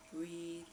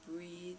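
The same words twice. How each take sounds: The two takes are said the same way.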